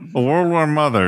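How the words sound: It is spoken nasally, through the nose.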